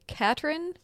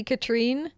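First: Katrin as KAT-rin, stress up front, rising at the end; pronunciation guess. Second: Katrine as ka-TREEN, weight on the second syllable; alternative pronunciation. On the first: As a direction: try "Katrin" with a short final i and a questioning lift. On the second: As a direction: offer "Katrine" with a long ee at the end. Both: Shown as a demonstration. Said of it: "gonna pronounce this name wrong or right".

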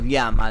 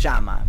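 First: "llama" with a y glide, "liama"; non-porteño "ll". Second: "llama" with a sh sound, "shama"; porteño "ll". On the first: Showing viewers what porteños don't say, "llama" as "liama". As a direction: say "llama" without any sh, as "yama". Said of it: "no decimos llama". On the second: Correcting to the Buenos Aires form, "llama" said "shama". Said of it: "decimos llama". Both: Shown as a demonstration.

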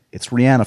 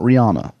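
First: Rihanna as ree-ANN-uh; corrected pronunciation. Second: Rihanna as ree-AH-nuh; common mispronunciation. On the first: Host correcting folks on the name, Rihanna said ree-ANN-uh. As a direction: stress a short-A ANN in RIHANNA. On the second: Host showing folks what it's not, Rihanna said ree-AH-nuh. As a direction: open AH in the middle of RIHANNA. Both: Shown as a demonstration. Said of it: "It's not [name]".

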